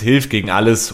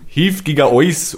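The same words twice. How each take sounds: First: It is said in Standard German pronunciation. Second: It is said in a Bavarian dialect accent. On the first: "Also auf Hochdeutsch heißt es" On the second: "erst auf Bayerisch. / Der Anfang klang realistisch"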